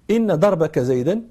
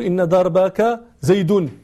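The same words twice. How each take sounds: First: زيدا said "zaydan", ending in -an; accusative ending. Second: زيد said "zaydun", ending in -un; wrong nominative ending. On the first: Scholar explaining the grammar, زيدا ending in -an. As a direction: end زيدا clearly on -an. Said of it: "هذا زيدا منصوب". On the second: Scholar showing the impossible reading, زيد ending in -un. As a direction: draw it out slowly, زيد ending in -un. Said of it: "لا يمكنك أن تقول". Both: Shown as a demonstration.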